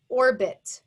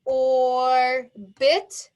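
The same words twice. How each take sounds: First: Said in the usual way. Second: "Orbit" pounded out loud as OR, then BIT; long held "or", a break, then a punched "bit" in "Orbit"; syllable by syllable. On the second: Shown as a demonstration. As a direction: split "Orbit" into two loud, separate beats. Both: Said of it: "Pound it out".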